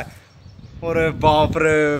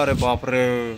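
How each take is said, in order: First: Long drawn-out oh my god, stretched slow; shocked gasp. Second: Low hushed oh my god, a touch of dread; scared murmur. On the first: Telling a friend about spotting the police siren, drawn-out shock. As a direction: let the dread stretch out each word. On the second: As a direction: say it under your breath, scared. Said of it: "अब मैंने बोला". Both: Retold or imitated.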